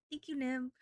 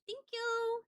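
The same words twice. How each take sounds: First: Said in the usual way. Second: High sing-song thanks. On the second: Real, not acted. Streamer thanking a viewer for a tip, high and chirpy. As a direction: thank you, squeaked up high.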